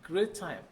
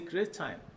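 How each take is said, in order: First: The two t sounds merge into one. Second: The two t sounds merge into one.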